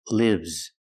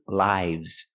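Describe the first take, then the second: First: The vowel is a short I, as in 'is'. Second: The vowel is a long I, as in 'hi'. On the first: It is the verb form. "Use the short sound" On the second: It is the plural noun form. "Use the long I"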